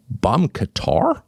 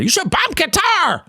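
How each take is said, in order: First: Slow, questioning repeat of BOMB QATAR; baffled, higher questioning tone; incredulous echo. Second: High-pitched hammed-up cry; exaggerated falsetto war cry; mock hawkish adviser. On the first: Real, not acted. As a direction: echo it in disbelief, rising and drawn out. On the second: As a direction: mockingly crow BOMB QATAR in a high voice. Mocks adviser's call for bombing.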